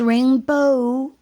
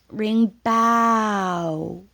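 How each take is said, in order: First: The last syllable ends with an 'oh' sound. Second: The last syllable ends with an 'ow' sound. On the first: The speaker calls it right. "this is rainbow" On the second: The speaker calls it wrong. "not rainbow. Ow is the pain sound"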